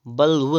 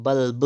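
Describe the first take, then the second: First: बल्ब ending in v; wrong pronunciation. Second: बल्ब ending in b; closed lips ending बल्ब; correct pronunciation. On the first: Teacher showing the error, बल्ब as balv. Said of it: "बल्ब नहीं होता है". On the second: Teacher correcting, बल्ब with final b. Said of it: "बल्ब होता है". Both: Shown as a demonstration.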